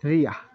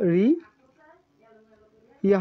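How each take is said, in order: First: It is said as one merged syllable. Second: It is said as two separate syllables. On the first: The speaker calls it right. "এটি হবে রিয়া" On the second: The speaker calls it wrong. "রি ইয়া হওয়ার কথা ছিল"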